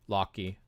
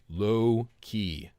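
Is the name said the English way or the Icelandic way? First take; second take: Icelandic; English. First: The name is said with Icelandic pronunciation. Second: The name is said like English 'low key'. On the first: The speaker calls it right. "That's how it's pronounced" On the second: The speaker calls it wrong. "that is not how the name is pronounced"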